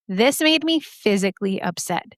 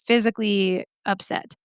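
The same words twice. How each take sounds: First: "made" leaned on, falling after it; stress on made. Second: Said in the usual way. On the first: Shown as a demonstration. Telling the audience the pain truly got to her, stressing made. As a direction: push the word "made" harder than the rest. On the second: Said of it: "but I'm not".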